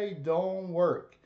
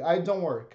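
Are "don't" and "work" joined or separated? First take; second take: separated; joined. First: Don't and work are said separately. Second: Don't is joined smoothly onto work. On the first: The speaker calls it wrong. "Você não fala I don't work" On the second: The speaker calls it right. "você junta com o verbo"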